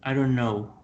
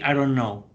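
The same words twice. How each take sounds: The two takes are said the same way.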